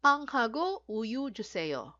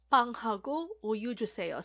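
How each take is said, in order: First: "Panghago uyu juseyo" said slowly, word by word; slow model phrase. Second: Said in the usual way. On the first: Shown as a demonstration. Teacher modeling a request phrase slowly. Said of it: "molderil kayo".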